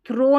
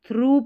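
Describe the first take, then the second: First: The vowel sounds like 'oh', as in throw. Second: The vowel sounds like 'oo', as in true. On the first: The speaker calls it wrong. "इसको थ्रो नहीं पढ़ना है" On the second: The speaker calls it right. "थ्रू पढ़ना है"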